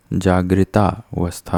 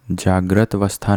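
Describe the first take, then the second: First: जागृता अवस्था said as "jaagrita avastha"; "jaa-gri-taa" in जागृता अवस्था; correct long ending. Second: जागृत अवस्था said as "jaagrat avastha"; short "jaagrat" in जागृत अवस्था; wrong, no final aa. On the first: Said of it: "होता है". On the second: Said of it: "नहीं होता". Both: Shown as a demonstration.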